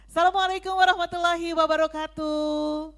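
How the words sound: It is said in a strong, confident voice. It grabs the audience's attention. The speaker calls it right. "Pede dong"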